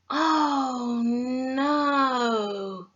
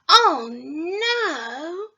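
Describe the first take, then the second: First: The pitch goes down on it. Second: The pitch is high on it.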